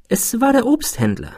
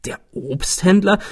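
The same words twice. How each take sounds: First: Higher-pitched, unruffled character voice; composed answer. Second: Puzzled echo, pitch rising high; astonished question. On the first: Friend explains who prompted the thought, composed. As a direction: state it calmly, pitched up. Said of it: "antwortete mein Freund gelassen". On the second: Narrator questions his friend's answer, astonished. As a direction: query it in surprise. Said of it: "Sie setzen mich in Erstaunen". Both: A narrator's reading.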